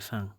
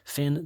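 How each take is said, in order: First: The vowel is nasal, with no clear final n. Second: The vowel is plain, with a clear final n. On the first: The speaker calls it right. "they say fin. That's just how they pronounce it" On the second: The speaker calls it wrong. "they don't say fin"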